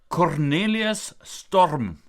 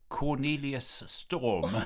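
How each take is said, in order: First: It is said with an Afrikaans accent. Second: It is said with an English accent.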